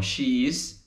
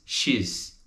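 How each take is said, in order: First: SHE and IS as two syllables; full form. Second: SHE'S as one syllable; contracted. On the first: Teacher shows what gets joined, "she is" in full. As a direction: say "she is" uncontracted. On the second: Teacher shows the contraction, "she's" in one syllable. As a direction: merge it into "she's". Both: Shown as a demonstration. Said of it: "Então, she is, she's".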